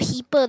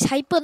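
First: The first vowel sounds like 'ee'. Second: The first vowel sounds like 'eye'. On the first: The speaker calls it wrong. "not heaper" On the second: The speaker calls it right. "Hyper is hyper"

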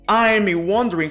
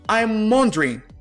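First: The final g sound is pronounced. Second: The final g sound is dropped.

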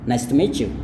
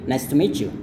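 First: 'Meet you' is joined with a ch sound. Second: 'Meet you' is joined with a ch sound.

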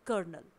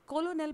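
First: It is said as ker-nel, two syllables. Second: It is said as ko-lo-nel, three syllables. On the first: The speaker calls it right. "इसे pronounce किया जाएगा कर्नल" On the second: The speaker calls it wrong. "इसे कोलोनेल pronounce नहीं किया जाएगा"

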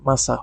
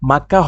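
First: The middle consonant is an S sound. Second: The middle consonant is a K sound. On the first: The speaker calls it right. "এটা মাসা হবে" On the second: The speaker calls it wrong. "এটা উচ্চারণ মাক্কা হবে না"

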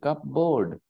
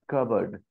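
First: The p and the full board are pronounced. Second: The p is silent and board is reduced. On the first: The speaker calls it wrong. "the spelling is clearly CUP, cup, BOARD, cupboard" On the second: The speaker calls it right. "But the pronunciation is cupboard"

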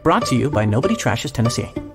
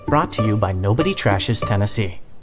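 First: The ending is said fast and rushed. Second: The ending is said slowly, without rushing.

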